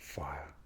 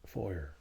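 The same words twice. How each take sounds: First: It is said in a posh English accent, no R. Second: It is said in a West Country accent. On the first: "You would pronounce it without the R for the posh English" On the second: "Or the West Country fire"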